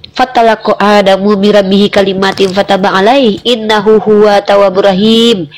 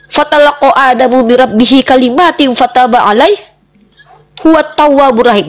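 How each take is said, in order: First: Low, measured recitation of a verse; solemn scripture recitation. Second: Verse recited briskly at speaking pitch; scripture quotation. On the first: Debater reciting the Quran verse on Adam's forgiveness, solemn recitation. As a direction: recite it low and evenly, drawing out the ending. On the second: Debater quoting the Quran as proof to her opponent, firm recitation. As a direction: recite the verse firmly, in phrases. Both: Real, not acted.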